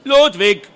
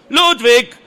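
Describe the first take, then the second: First: Calling the name out much louder and higher; high, loud call across the lab. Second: Even louder, higher shout of the name; a very loud, high shout across the house; louder call. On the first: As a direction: shout for the missing assistant. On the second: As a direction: yell it out impatiently. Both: A narrator's reading. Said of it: "rief er laut".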